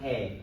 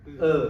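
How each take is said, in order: First: The letter is said with a different vowel. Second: The letter is said with the French vowel. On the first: The speaker calls it wrong. "bukan E" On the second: The speaker calls it right. "Yang benar itu E"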